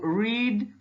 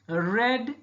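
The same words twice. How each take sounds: First: The vowel is long, as in 'seed'. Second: The vowel is short, as in 'bed'. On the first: It is the present or infinitive form. "read in present or infinitive" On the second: It is the past form. "read in past"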